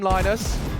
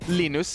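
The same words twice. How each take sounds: First: The name has an English pronunciation. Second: The name has a Swedish pronunciation. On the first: "We're allowed to call him Linus" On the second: "Or Linus if we were Swedish"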